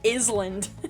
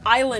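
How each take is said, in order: First: The S in the word is pronounced. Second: The S in the word is silent. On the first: The speaker calls it wrong. "not an island" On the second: The speaker calls it right. "The S is silent"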